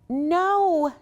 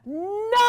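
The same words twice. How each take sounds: First: It is said a little louder. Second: It is said loudly and strongly.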